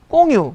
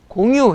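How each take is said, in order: First: The first consonant is tense and hard. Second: The first consonant is plain and soft. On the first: This is how someone from Busan says it. "꽁유 그러더라고" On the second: This is the standard way to say it. "공유 해봐"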